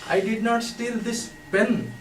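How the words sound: The stress is on "pen".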